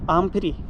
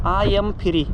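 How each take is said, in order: First: It is said quickly, words run together. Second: It is said slowly, each word separate.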